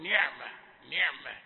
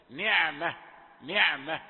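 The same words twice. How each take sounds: First: نعمة with the ayn squeezed toward a gh sound; ayn nearing ghayn. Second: نعمة louder, the ayn pure and ringing, unpressed; clear, open ayn. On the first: Teacher showing a common slip, نعمة with choked ayn. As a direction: show the error in نعمة, pressing the ayn shut. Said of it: "كأنه قريب من الغين". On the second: Teacher modelling the correction, نعمة with pure ayn. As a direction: let the ayn in نعمة flow openly, never closed into gh. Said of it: "فلا بد أن تصفي". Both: Shown as a demonstration.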